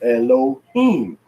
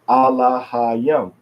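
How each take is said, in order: First: The stress is on the last syllable. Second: The stress is on the second-to-last syllable. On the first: "they would say Elohim on the last syllable" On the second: "next to the last syllable is stressed in other words that are longer than three syllables"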